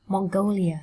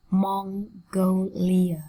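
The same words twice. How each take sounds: First: Said in the usual way. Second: Very slow MON-GO-LIA, syllables apart. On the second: Shown as a demonstration. Teacher modelling a country name, slowly split up. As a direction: sound out Mongolia slowly in separate syllables. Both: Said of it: "Cô giáo đọc chậm nhá".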